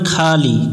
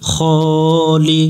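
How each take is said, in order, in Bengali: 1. প্রথম স্বরধ্বনিটি খোলা a ধ্বনি। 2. প্রথম স্বরধ্বনিটি গোলাকার o ধ্বনি। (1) "এখানে অনেকজন ভুল করে খালি, খা পড়া যাবে না" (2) "খ পড়তে হবে"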